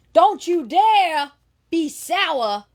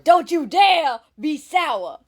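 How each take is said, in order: First: A touch of Big E, high and slow; mock-preach his catchphrase lightly; lightly imitating Big E. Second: A touch of Big E, high and slow; lightly imitating Big E. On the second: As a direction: repeat his catchphrase in mild mock style. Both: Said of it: "it's an imitation of him".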